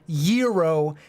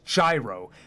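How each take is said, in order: First: It is said in a Greek-sounding way. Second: It is said like the start of gyroscope. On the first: The speaker calls it wrong. "not the hipster libtard" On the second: The speaker calls it right. "you're not Greek, so you say gyroscope. And when you eat the food, you say gyro"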